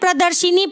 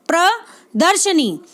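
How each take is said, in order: First: An 'i' vowel follows the 'sh' sound. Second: No 'i' vowel follows the 'sh' sound. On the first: The speaker calls it wrong. "प्रदर्शिनी पढ़ते हैं, जो कि गलत है" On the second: The speaker calls it right. "क्या होता है?"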